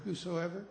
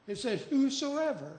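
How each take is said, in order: First: Said in the usual way. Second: Whosoever pitched much higher, falling at the end; stress on whosoever. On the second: Shown as a demonstration. Preacher to congregation, crowning whosoever with high emphasis. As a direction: ring out whosoever as the answer. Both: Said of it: "and I love that word".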